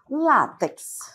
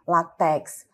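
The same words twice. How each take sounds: First: The stress is on the first syllable. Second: The stress is on the last syllable. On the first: The speaker calls it right. "a forma correta, adequada, é desta maneira" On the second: The speaker calls it wrong. "colocando a sílaba tônica última"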